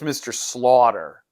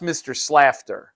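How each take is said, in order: First: The name is said without an f sound. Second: The name is said with an f sound. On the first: The speaker calls it right. "but it's Mister Slaughter" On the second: The speaker calls it wrong. "it's not pronounced Mister Slafter"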